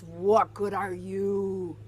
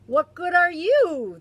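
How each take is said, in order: First: Slow, sulky pirate grumble; slow grumpy question; grumpy Gus. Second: Higher, louder squawky echo; loud high parrot mimic; parroting bird. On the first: Acted. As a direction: drag it out like a sour old pirate. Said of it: "He asks". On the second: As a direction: throw it back like a cheeky parrot. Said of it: "the parrot asks".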